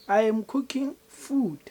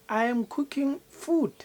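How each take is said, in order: No difference in how they are said.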